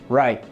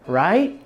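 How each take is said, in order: First: The pitch falls at the end like a statement. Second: The pitch rises at the end like a question. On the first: It asserts agreement as given. The speaker calls it right. "I said" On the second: It asks for agreement. The speaker calls it wrong. "I didn't ask"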